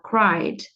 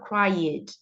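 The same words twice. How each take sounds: First: The word ends directly in a d sound. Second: The ending is voiced as an extra syllable. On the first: The speaker calls it right. "eu vou falar cried" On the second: The speaker calls it wrong. "Eu não vou falar cried"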